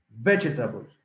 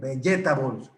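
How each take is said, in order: First: The stress is on the first syllable. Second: The stress is not on the first syllable. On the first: The speaker calls it right. "The accent goes in the first syllable" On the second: The speaker calls it wrong. "que es la más común. Vegetables. No"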